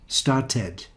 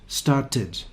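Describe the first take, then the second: The two takes are said the same way.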